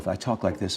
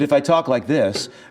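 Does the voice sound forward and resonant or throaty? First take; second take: throaty; forward. First: The voice sits low and pressed in the throat. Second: The voice rings forward and high in the face. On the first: This way of speaking tires the voice. The speaker calls it wrong. "I'm talking on my chords and I'm going to be tired" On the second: This way of speaking spares the vocal cords. The speaker calls it right. "if I keep my voice up here, then my then this is the resonating"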